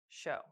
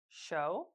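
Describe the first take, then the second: First: The pitch falls at the end of the word. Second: The pitch rises at the end of the word. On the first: "rising and falling intonations" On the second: "rising and falling intonations"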